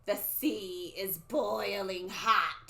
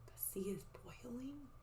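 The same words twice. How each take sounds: First: Slow, drawn-out prophecy; stretched, ominous crone voice; old lady soothsayer. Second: Hushed, questioning whisper; very soft wondering aside; whispered amazement. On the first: Acted. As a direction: intone it like a creepy seer. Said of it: "the old lady talking". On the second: Real, not acted. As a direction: whisper it in disbelief to listeners. Teacher's amazed aside to listeners.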